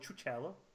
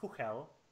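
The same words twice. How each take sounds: First: The name has an English-style pronunciation. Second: The name has a Czech-style pronunciation. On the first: This is how most people will say it. The speaker calls it wrong. "I'm pretty sure everybody will call it" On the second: This is how the makers intend it. The speaker calls it right. "it's actually meant to be pronounced"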